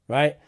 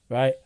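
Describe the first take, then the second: The two takes are said the same way.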